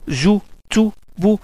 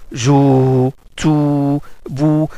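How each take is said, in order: First: The vowels are said short. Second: The vowels are drawn out long.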